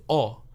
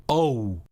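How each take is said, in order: First: O as one clean vowel, no glide; single-sound Spanish o; pure o. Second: O drawn out, gliding into oo; slow English o with oo at the end; diphthong o. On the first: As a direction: say o the Spanish way, without any oo. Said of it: "diphthongs are two sounds to make one". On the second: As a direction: say o as English speakers do, oh-oo. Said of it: "They add the oo sound at the end". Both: Shown as a demonstration.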